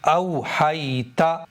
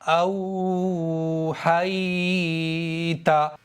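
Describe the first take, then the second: First: The vowels are said quickly without stretching. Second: The vowels are stretched out for a long time.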